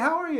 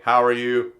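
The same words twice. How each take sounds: First: It is spoken with pitch moving up and down. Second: It is spoken on a flat, monotone pitch. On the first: "more melodious with their voice. They might go up and down" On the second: "Some people speak in a very monotone voice. They might have two notes"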